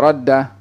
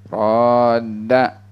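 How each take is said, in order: First: The first vowel is short. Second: The first vowel is drawn out long. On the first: The speaker calls it wrong. "bukan dibaca wala radda" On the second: The speaker calls it right. "panjang, ada alif di situ"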